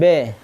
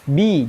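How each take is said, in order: First: The vowel is slanted away from a pure i. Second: The vowel is a straight, pure i sound. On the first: The speaker calls it wrong. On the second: The speaker calls it right.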